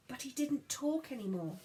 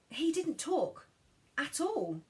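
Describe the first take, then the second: First: Said in the usual way. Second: He lifted high, didn't talk at all falling; stress on he. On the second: A narrator's reading. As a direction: lean on he, then let at all drop. Emphatic repeat.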